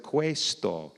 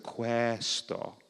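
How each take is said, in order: First: "questo" with a closed vowel, like "kway-sto"; slow "questo" as "kway-sto". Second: "questo" with an open vowel, like "kweh-sto"; slow "questo" as "kwaa-sto". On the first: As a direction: say "questo" with an ay sound, drawn out. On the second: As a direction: say "questo" with a wide eh, drawn out. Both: Shown as a demonstration. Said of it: "instead of questo".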